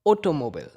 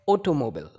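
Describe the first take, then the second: Both takes have the same delivery.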